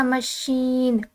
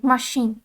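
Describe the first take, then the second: First: मशीन with the weight on शीन, ending strong; French stress on second syllable. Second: मशीन with the weight on मा, said slowly; English stress on first syllable. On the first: Teacher shows students the French stress on मशीन. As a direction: lean into the end of मशीन, the French way. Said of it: "मतलब second part पे जोर दिया जा रहा है". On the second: Teacher contrasts the English first-syllable stress on मशीन, slowly. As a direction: hit the first part of मशीन and let शीन go weak. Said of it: "first part पे हमने जोर देना start कर दिया". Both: Shown as a demonstration.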